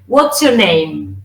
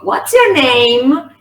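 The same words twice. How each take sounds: First: The pitch falls at the end. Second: The pitch rises at the end. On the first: The speaker calls it right. "In English, the W H questions fall down. So you say" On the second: The speaker calls it wrong. "No digo, ... Eso suena re español, re Spanglish"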